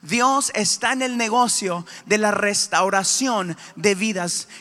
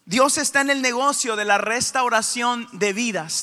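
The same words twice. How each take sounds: First: The sentence is spoken a little more slowly. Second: The sentence is spoken at a normal pace.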